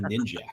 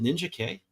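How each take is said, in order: First: The name is said as one blended word. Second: The name ends with a separately spoken letter K. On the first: The speaker calls it wrong. "For all these years, I've been saying Ninjak" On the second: The speaker calls it right. "Is it Ninja K?"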